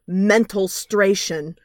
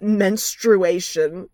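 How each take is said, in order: First: The word has an extra 'mental' sound inside. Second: The word is said in its usual form. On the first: The speaker calls it wrong. "pronounces it mentalstration" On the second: The speaker calls it right. "not menstruation"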